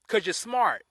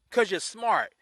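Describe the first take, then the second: No difference in how they are said.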